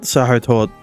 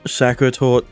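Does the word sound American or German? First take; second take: German; American. First: It is said with a German-sounding breathy H. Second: It is said with an American-sounding K. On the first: "the more German way of saying it" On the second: "if you want to sound less German"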